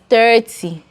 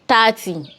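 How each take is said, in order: First: The first vowel is an 'er' sound. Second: The first vowel is an 'ah' sound. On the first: This is how people here say it. The speaker calls it right. "We here pronounce it as thirty" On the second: This is how people from the other side say it. The speaker calls it wrong. "where have you seen A?"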